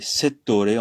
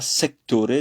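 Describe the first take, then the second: First: The middle has a double 't' sound. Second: The middle has a 'kt' sound. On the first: The speaker calls it right. "c'est settore en italien" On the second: The speaker calls it wrong. "c'est pas sectore"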